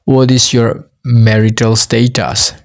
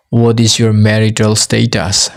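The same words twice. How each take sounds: The two takes are said the same way.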